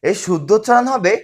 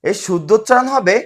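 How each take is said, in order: The two takes are said the same way.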